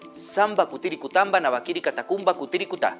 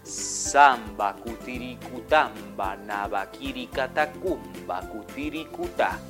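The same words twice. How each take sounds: First: The phrase is said at normal speed. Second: The phrase is said very slowly.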